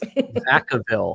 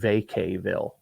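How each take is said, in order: First: The middle syllable sounds like 'kuh'. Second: The middle syllable sounds like 'cay'. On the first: The speaker calls it right. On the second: The speaker calls it wrong.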